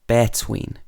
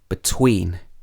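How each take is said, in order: First: The stress is on the first syllable. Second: The stress is on the second syllable. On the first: The speaker calls it wrong. "you wouldn't say" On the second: The speaker calls it right. "You would say"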